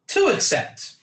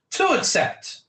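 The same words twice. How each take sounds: First: To pitched up and held before accept; to stressed higher. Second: The word to leaned on, then accept; stress on to. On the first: Teacher repeating the phrase for students, to lifted higher. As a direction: lift to above the rest. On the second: Teacher contrasting two takes, to stressed. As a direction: hit to before accept. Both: Shown as a demonstration. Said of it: "You hear the difference?".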